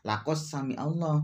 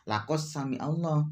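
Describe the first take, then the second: First: The d merges into the following sound. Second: The d merges into the following sound.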